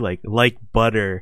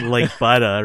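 First: The final R in butter is clearly pronounced. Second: The final R in butter is dropped. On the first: "I like how you guys said the hard R too" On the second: "It's not like butter, right?"

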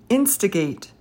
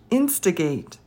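No difference in how they are said.

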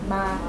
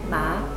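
First: The pitch stays level at a mid height. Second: The pitch starts high and rises higher. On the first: "mid-level is just normal" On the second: "voice starts high and goes up"

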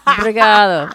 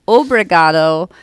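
First: The word is clipped short. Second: The word is said in full. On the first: "They just say" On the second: "they don't say like, obrigado"

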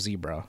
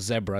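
First: It is said with the American pronunciation. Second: It is said with the British pronunciation. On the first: "instead of zebra" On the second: "So they go zebra"

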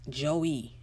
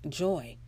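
First: The name is said as two syllables. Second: The name is said as one syllable. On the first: The speaker calls it wrong. "Some people look at J-O-I and say" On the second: The speaker calls it right. "some people can't say joy"

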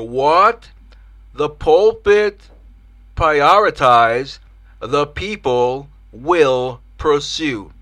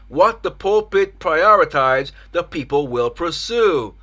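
First: The sentence is said at a slow pace. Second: The sentence is said at a normal pace.

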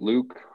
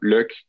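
First: It is said with an English pronunciation. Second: It is said like the English word look. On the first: "comme en anglais" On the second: "Pour les Canadiens français, je trouve que c'est souvent Luke. Comme, pour moi, ça s'entend comme look"

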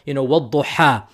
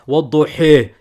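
First: The final vowel is a full open a. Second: The final vowel is raised close to e.

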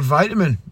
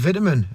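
First: It is said with an American pronunciation. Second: It is said with a British pronunciation. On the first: "winding people up from America that I'm saying vitamin and not vitamin" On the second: "I'm saying vitamin"

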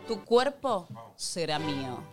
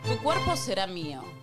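First: It is said slowly. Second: It is said very fast.

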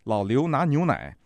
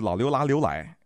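First: It is said in standard Mandarin. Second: It is said with a Nanjing accent.

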